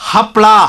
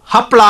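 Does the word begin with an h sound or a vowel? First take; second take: h sound; h sound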